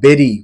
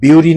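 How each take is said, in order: First: The first vowel sounds like eh. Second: The first vowel sounds like yoo. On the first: The speaker calls it right. "Proper উচ্চারণ" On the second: The speaker calls it wrong. "বিউরি নয়"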